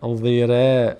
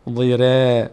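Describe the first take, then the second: Both takes have the same delivery.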